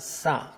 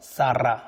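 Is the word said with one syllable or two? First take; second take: one; two. First: The word is said as one syllable. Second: The word is said as two syllables. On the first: It means to wash or a pond. "러르아가 발음이 안 되는 경우가 있습니다. 그러면 싸" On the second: It means a vowel. "읽는 방법이 두 가지입니다. 그래서 싸라 하면 모음이란 뜻이 되고요"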